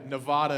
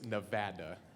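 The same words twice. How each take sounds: First: The word has the commonly heard outsider pronunciation. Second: The word has the local residents' pronunciation. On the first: This is how people from elsewhere say it. The speaker calls it wrong. "Nevada is what we always hear" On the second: This is how people who live there say it. The speaker calls it right. "but it's Nevada"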